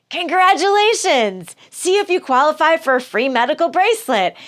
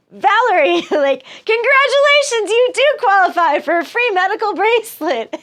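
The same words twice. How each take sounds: First: Automated prize recording. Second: Very high, loud mock promo voice through laughter; prize recording voice. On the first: Retold or imitated. Caller hears the misdial prize recording, mock chirpy. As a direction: ham up a cheery phone-promo robot. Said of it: "So they're just like". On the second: Greg calling again gets the promo, hammed-up cheery. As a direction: squeal the canned prize offer, barely holding it together. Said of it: "He's like".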